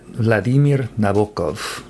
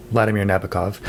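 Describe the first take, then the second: First: Vladimir Nabokov with second-syllable stress, vla-DEE-mir na-BO-kov; Russian pronunciation. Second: Said in the usual way. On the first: Shown as a demonstration. Book reviewer showing what Russian-speaking friends taught, Russian pronunciation of Vladimir Nabokov. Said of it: "as I learned from some Russian-speaking friends".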